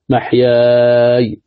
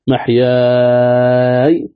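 First: The long vowel is held a medium length. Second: The long vowel is held a long time. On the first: "توسط" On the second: "طول"

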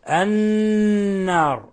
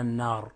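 First: The doubled n is held with nasalization, two counts. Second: The doubled n is short, without held nasalization. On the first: The speaker calls it right. "حكمها أن تغن مقدار حركتين" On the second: The speaker calls it wrong. "فلا نقرأها النار"

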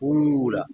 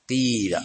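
First: The first vowel is a pure u sound. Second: The first vowel is a pure i sound. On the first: The speaker calls it wrong. "أن تخلص ضمة الحرف الأول" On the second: The speaker calls it right. "قيل بكسر الأول"

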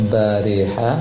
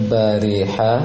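Both takes have the same delivery.

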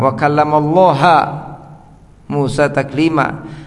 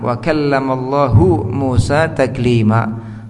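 First: The word Allah ends with an a vowel. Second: The word Allah ends with a u vowel. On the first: Moses is the one who speaks to God. The speaker calls it wrong. "Dibaca mansub oleh sebagian mereka, kelompok yang menyimpang" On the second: God is the one who speaks to Moses. The speaker calls it right. "Wa kallamallahu dengan rafa, dengan dhamma fa'il"

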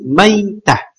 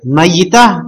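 First: The word is said in a lightened, shorter form. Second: The word is said in its full, longer form. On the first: This is the lightened everyday form of the word. "ditakhfif diringankan menjadi mayitah" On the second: This is the regular underlying form of the word. "itu bentuk bentuk ya bukan asal juga tapi formalnya normalnya"

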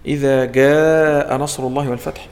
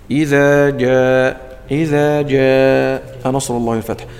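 First: The j is a hard g sound. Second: The j is a firm dj sound. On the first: The speaker calls it wrong. "هذا تقول له عطش الجيم" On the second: The speaker calls it right. "الجيم الصحيحة هي الوسط"

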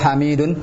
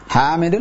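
First: The vowel after the m is long. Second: The vowel after the m is short. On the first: "Hanya pendek atau panjang?" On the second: "Hanya pendek atau panjang?"

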